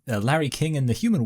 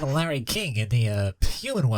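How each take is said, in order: First: The voice is not pinched through the nose. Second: The voice is pinched and nasal. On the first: "I'm gonna kind of do a vague impression of it" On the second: "close your nose as you do it"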